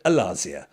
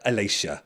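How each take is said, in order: First: The surname is pronounced with an Italian sound. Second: The surname is pronounced with an English sound. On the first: The speaker calls it right. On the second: The speaker calls it wrong.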